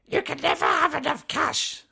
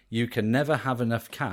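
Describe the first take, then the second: First: It is said in a put-on character voice. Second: It is said in the speaker's normal voice.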